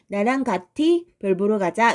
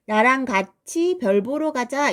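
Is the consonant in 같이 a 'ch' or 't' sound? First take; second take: t; ch. First: The consonant in 같이 sounds like t. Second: The consonant in 같이 sounds like ch. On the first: The speaker calls it wrong. "이렇게 발음하지 않죠" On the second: The speaker calls it right. "이렇게 하지"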